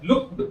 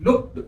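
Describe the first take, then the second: First: लुक्ड said with an extra vowel, "look-ed"; लुक्ड said as two syllables like "look-ud"; wrong pronunciation. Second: लुक्ड said as one syllable; लुक्ड said as a single syllable, ending on a hard d; correct pronunciation. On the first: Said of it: "लुक्ड नहीं है". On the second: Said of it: "यहाँ देखिए कि क आता है". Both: Shown as a demonstration.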